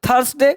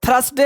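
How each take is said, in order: Both takes have the same delivery.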